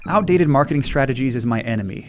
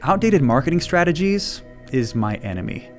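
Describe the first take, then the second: First: It is read smoothly, like a script. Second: It is spoken with pauses, like thinking aloud. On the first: The words are being recited from a prepared text. The speaker calls it wrong. "instead of saying something like" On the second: The speaker seems to be gathering their thoughts. The speaker calls it right. "one feels way more personal and conversational"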